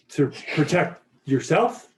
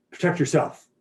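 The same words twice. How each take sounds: First: "To protect yourself?" asked with a rising end; questioning tune. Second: "Protect yourself." said as a falling statement; stating tune. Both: Shown as a demonstration.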